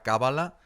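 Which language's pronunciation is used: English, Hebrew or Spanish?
Spanish. The word is pronounced the Spanish way. "en castellano de España te dirá Cábala"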